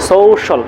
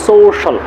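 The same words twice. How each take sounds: The two takes are said the same way.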